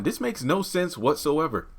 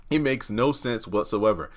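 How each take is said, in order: First: "This makes no sense whatsoever" said higher, with "makes" hit hard; emphatic. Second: Said in the usual way. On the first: Real, not acted. Reviewer venting at a confusing scene, stressing "makes" high. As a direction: push the word "makes" up in exasperation.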